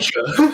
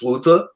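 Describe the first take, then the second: First: The middle consonant is a ch sound. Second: The middle consonant is a plain t sound. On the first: This is the Brazilian Portuguese form. "but it's lucha in Brazilian" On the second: This is the European Portuguese form. "fight in European Portuguese is luta"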